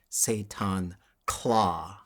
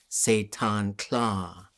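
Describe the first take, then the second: First: The last syllable sounds like the English word 'claw'. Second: The last syllable has a voiceless lateral 'tl' sound. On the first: "if we start to lose the Tlingit language, that'll become" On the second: "There's so many Tlingit names that have kla in them"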